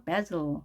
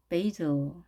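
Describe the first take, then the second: First: Basil as BAZ-l, tongue held on L; short a, final L. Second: Basil as BAY-zl, tongue held on L; long ay, final L. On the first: Teacher models the L ending, basil as BAZ-l. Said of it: "입술을 길게 늘린 상태에서". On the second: Teacher models the L ending, basil as BAY-zl. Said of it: "을 발음하면 미소 띈". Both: Shown as a demonstration.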